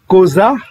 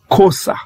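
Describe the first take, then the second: First: The middle consonant is a voiced z sound. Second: The middle consonant is a voiceless s sound. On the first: "au lieu de dire euh, ko, koza" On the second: "on va prononcer ça kosa"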